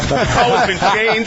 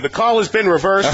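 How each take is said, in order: First: Hammed-up referee call, higher, pause before changed; mock ref, stretch the wait before changed; Jeff Triplett. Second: Mock referee announcement, pitched up; Jeff Triplett. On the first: Teasing the ref's alarm call, higher mock announcement. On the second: Alarm app announcing a reversed call, mock referee voice. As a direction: call it out like a ref on the stadium mic. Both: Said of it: "it was Jeff Triplett saying".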